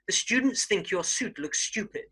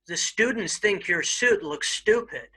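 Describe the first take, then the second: First: It is said in a standard British accent. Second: It is said in an American accent. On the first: "standard British English" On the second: "I'll first do it in an American accent"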